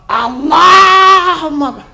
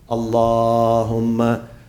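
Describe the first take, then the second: First: It is said loudly as a scream. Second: It is said softly in a gentle tone. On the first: The speaker calls it wrong. "Don't scream. Some people, when they say salawat" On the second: The speaker calls it right. "the salawat has to be in a nice tone"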